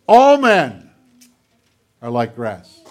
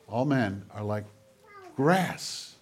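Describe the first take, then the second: First: The stress falls on the word men. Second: The stress falls on the word grass. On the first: All people share this fate. "All men, people, are like grass" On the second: People are fragile and fleeting. "Or change the emphasis. They're just grass"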